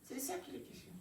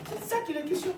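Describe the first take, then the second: First: Much softer, as if letting it sink in; hushed repetition. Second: High-pitched, ringing statement to the congregation; raised emphatic delivery. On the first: Same line repeated softly. (tout bas, comme en écho) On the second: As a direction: lift the whole line up high. Rhetorical line, first raised. (ton haut et insistant) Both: Real, not acted.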